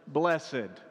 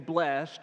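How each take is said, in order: First: It is said in an old-fashioned formal way. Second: It is said in the ordinary modern way. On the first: "in a King James pronunciation, ... you said blessed" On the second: "you didn't say blessed"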